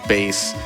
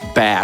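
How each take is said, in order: First: The name is not said like the fish word. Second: The name is said like the fish word.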